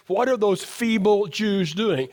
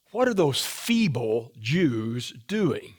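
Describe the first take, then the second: First: Slow, with weight on feeble; emphasized. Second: Mocking sneer. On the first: Shown as a demonstration. Preacher stressing the insult to his congregation, slow and pointed. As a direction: lean hard into the word feeble, drawn out. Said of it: "I gotta emphasize". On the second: Preacher voicing Sanballat mocking the builders, slow low sneer. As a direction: sneer it out slowly like an enemy taunting. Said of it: "And then he says this".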